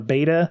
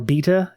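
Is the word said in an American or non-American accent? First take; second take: American; non-American. First: It is said in an American accent. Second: It is said in a non-American accent.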